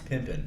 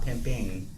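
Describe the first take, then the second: First: The ending is dropped to an 'in' sound. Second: The ending is a full 'ing' sound. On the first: The speaker calls it right. "that's pimpin'" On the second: The speaker calls it wrong. "not pimping"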